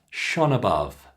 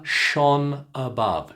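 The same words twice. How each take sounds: First: "shone above" at normal speed, N flowing into the schwa; linked at normal pace. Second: "shone above" slowed, N running into the schwa; linked slowly. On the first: Teacher giving the natural linked version. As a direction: say "shone above" smoothly in one breath. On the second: Teacher linking words slowly for learners. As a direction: glide "shone" into "above" without a break. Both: Shown as a demonstration. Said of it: "Put them together".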